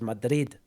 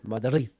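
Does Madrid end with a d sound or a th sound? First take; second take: d; th. First: The final sound is a hard d. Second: The final sound is a soft th. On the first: The speaker calls it wrong. "they don't say it as Madrid" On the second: The speaker calls it right. "with like a th sound"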